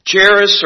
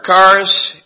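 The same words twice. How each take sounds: First: Charis with a CH as in charity; English-style pronunciation. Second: Charis with a hard K, KAH-ris; Greek pronunciation. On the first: Preacher showing how the Greek word looks in English, Charis as CHAIR-iss. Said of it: "what does that look like in our English". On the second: Preacher giving the Greek form to the congregation, charis as KAH-ris. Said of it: "in the Greek that's pronounced". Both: Shown as a demonstration.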